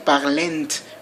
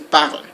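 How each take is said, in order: First: The word ends with an extra vowel sound after L. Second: The word ends with an L sound. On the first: The speaker calls it wrong. "you don't say parlent or something like that" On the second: The speaker calls it right. "You end with the L sound"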